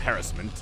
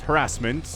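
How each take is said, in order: First: It is said with a British pronunciation. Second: It is said with an American pronunciation.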